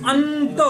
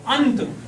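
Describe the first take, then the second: First: अंत with a long humming न sound before the त; nasal n stressed. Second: Said in the usual way. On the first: Shown as a demonstration. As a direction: draw out the न in अंत, through the nose only. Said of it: "इसमें ना का उच्चारण होता है ना". (अंत में न की ध्वनि नाक से खींचकर) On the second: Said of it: "जैसे लिखा हो".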